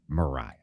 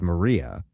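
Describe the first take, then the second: First: The middle vowel sounds like 'eye'. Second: The middle vowel sounds like 'ee'. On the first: This is the actual local name. The speaker calls it right. "but it is in fact Mariah" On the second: This was the speaker's earlier mistaken belief. The speaker calls it wrong. "that I always thought was Maria"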